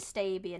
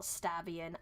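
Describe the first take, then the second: First: The first syllable does not sound like stab. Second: The first syllable sounds like the word stab. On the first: The speaker calls it right. "It's probably Stabian" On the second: The speaker calls it wrong. "not Stabian. I'm just like pronouncing it wrong"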